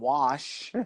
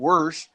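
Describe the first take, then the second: First: The vowel is said without an r sound. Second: An r sound follows the vowel. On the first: The speaker calls it right. "or Washington wash" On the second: The speaker calls it wrong. "You don't say"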